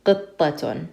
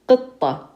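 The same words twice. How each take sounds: First: "قطة" ending in -tun, T sounded with un; "قطة" as qittatun; with tanween. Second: "قطة" said high, ending without the un sound; "قطة" bare, no -tun; no tanween ending. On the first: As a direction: add the un after the ta in "قطة". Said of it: "we want to pronounce the ta with the un sound". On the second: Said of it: "If it didn't have anything on it, we would just say". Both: Shown as a demonstration.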